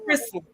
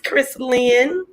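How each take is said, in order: First: The name flows together as one word. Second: The name is split into two separate words. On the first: This is how the mother intends it. The speaker calls it right. "it's one word and it's pronounced like this" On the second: This is how the grandmother says it. The speaker calls it wrong. "I say it like that because my grandmother says it like that"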